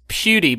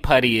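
First: The name does not sound like 'putty'. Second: The name sounds like the word 'putty'. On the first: The speaker calls it right. "I think it's Pewdie" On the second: The speaker calls it wrong. "Danny Putty is the fun new holiday toy"

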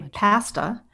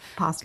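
First: The first vowel is not an 'ah' sound. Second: The first vowel is an 'ah' sound. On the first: This is the pronunciation the speaker avoids. The speaker calls it wrong. "I do not say pasta" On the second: This is the pronunciation the speaker keeps. The speaker calls it right. "are all of those pronunciations ah?"

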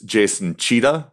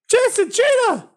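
First: The name is said in a normal speaking voice. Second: The name is said in a raised, higher voice.

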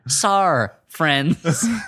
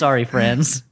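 First: Sorry is cut to its first syllable only. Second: Sorry is said with both syllables. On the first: "No time for second syllables. Just the first sill" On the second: "This is sorry, friends"

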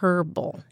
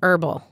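First: The word is said the British way. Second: The word is said the American way. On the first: "But in Britain, they would say herbal" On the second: "In the United States, we say herbal"

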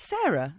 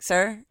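First: The name is said with two syllables. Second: The name is squeezed into one syllable. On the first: "it has two syllables" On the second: "the way Americans say my name as one syllable"

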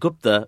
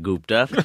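First: The name is said in its usual way. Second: The name is said in a deliberately altered way. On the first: The speaker calls it right. "it's actually Gupta" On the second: The speaker calls it wrong. "I intentionally mispronounced it for the laugh"

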